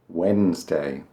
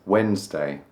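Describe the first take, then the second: No difference in how they are said.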